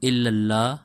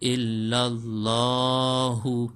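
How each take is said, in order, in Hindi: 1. शब्द के अंत में अंतिम 'u' स्वर नहीं है। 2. शब्द के अंत में अंतिम 'u' स्वर है। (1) "अमूमन जल्दी में हम लोग पढ़ते हैं" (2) "हु को भी पढ़ना है"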